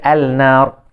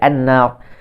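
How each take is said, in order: First: The L is pronounced clearly before the N. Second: The L is merged into a doubled N. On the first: The speaker calls it wrong. "kita tak baca al-nar" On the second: The speaker calls it right. "kita baca an-nar"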